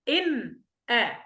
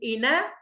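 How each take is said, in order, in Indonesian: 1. Ada henti diam sebentar yang memisahkan kedua kata. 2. Kedua kata itu menyambung tanpa jeda sama sekali. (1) "نقرأ بالسكت" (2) "نقرأ بالنقل"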